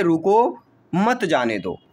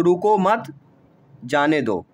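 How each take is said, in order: First: "रुको", pause, then "मत जाने दो" together; pause after रुको. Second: "रुको मत" together, pause, then "जाने दो"; pause after मत. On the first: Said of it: "अगर यहाँ अल्प विराम लग गया, तो हम क्या पढ़ेंगे". ("रुको" के बाद विराम, फिर "मत जाने दो" एक साथ) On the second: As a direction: break after मत, dropping pitch on जाने दो. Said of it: "मान लो यहाँ लग गया". ("रुको मत" एक साथ, विराम, फिर "जाने दो") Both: Shown as a demonstration.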